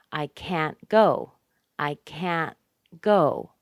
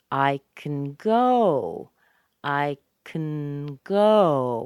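First: Slow, equal weight on "can't" and "go"; full vowel in "can't", clipped t, then strong "go"; stress on CAN'T and GO. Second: Tiny reduced "can", long loud "go"; slow demo, all weight on "go"; stress on GO. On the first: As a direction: punch both "can't" and "go" separately. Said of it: "you also hear it on can't". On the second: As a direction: shrink "can" to "kn" and lean hard on "go". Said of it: "Go is strong. Can, C A N, is very small". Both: Shown as a demonstration.

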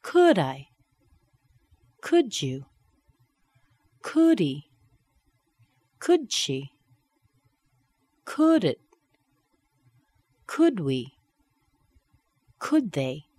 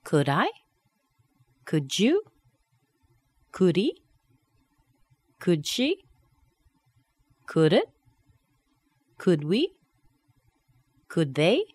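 First: Each "Could" tag stressed first, then falling; falling intonation. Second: Each "Could" tag rising on the pronoun; rising intonation. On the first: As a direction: hit "Could" and drop the pronoun. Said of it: "And down". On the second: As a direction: lift the last word of every "Could" question. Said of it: "Going up". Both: Shown as a demonstration.

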